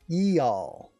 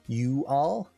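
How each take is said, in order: First: The first word has a spread ee vowel. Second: The first word has a rounded oo vowel. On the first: "or the e" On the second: "you'd get the oo"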